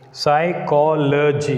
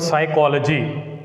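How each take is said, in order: First: Slow "psychology", split as psy, cho, lo, gy; each syllable of "psychology" said apart. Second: Said in the usual way. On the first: Shown as a demonstration. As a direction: sound out "psychology" in four separate beats. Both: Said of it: "it is a polysyllabic word".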